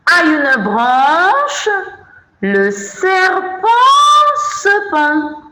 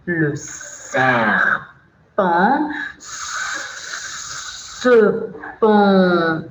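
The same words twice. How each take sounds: First: High, slow singsong verse; singsong recitation. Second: Slow, drawn-out hissed S sounds; hissing recitation. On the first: Teacher reciting the snake verse to children, high singsong. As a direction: lift the poem line high and stretch it out. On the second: Teacher reciting the snake verse to children, slow hiss. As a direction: stretch the S like a snake, very slowly. Acts out the snake's poem line. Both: Shown as a demonstration.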